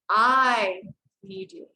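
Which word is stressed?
I. The stress falls on the word I. "I'm going to stress on the word, first word"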